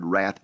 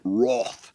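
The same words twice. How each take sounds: First: It is said with an American pronunciation. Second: It is said with an English pronunciation.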